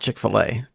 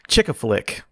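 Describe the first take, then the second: First: It is said as Chick-fil-A. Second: It is said as Chick-a-Flick. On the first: The speaker calls it right. "and not Chick-fil-A" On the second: The speaker calls it wrong. "I used to think it was called Chick-a-Flick"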